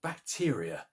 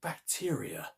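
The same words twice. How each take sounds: First: Said in the usual way. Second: A wondering whispered "bacteria"; hushed whisper. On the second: A narrator's reading. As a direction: whisper "bacteria" softly, the word trailing away. Narrator repeats the revelation.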